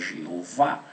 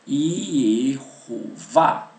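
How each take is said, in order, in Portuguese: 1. A palavra começa com som de J. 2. A palavra começa com som de Y. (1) "deram a fonética de J para o Yud, e não é correto" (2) "O Yud ele não tem o som de J"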